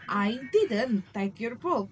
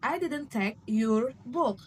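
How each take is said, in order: First: The word take carries the main stress. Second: The word your carries the main stress. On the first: The action itself is denied. "is to denying the action" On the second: It was someone else's book. "suggesting it was some else's book"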